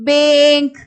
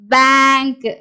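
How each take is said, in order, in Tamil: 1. இந்த உயிர் எழுத்து நீண்ட 'ay' ஒலி. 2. இந்த உயிர் எழுத்து திறந்த 'ae' ஒலி. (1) "ஏங்கிற உச்சரிப்பு வந்தா ஆக்சுவலா இந்த வேர்டை நம்ம எப்படி படிக்கணும்?" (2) "இது எப்படி படிக்கிறோம்?"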